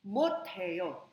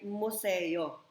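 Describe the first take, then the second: First: The middle consonant is an aspirated t sound. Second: The middle consonant is a plain s sound. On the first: The speaker calls it right. "magiging aspirated" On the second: The speaker calls it wrong. "Ang basa dyan ay museo, which is wrong"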